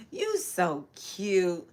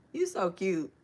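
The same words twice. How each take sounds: First: Slow, cooing you so cute; tender, drawn-out. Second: Said in the usual way. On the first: Real, not acted. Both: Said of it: "repeats it slowly".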